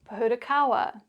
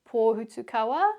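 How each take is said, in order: First: It is said with English sounds and patterns. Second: It is said with Māori sounds and vowels. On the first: "the anglicised version" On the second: "the Māori pronunciation"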